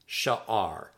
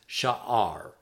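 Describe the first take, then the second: First: The word is said as two syllables. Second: The same.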